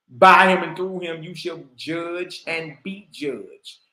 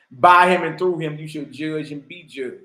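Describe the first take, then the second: First: Slower repeat. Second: Said in the usual way. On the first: Shown as a demonstration.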